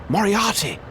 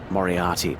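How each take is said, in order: First: Shocked outcry. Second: Said in the usual way. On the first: Acted. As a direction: cry out the name Moriarty in alarm. Startled recognition of old enemy.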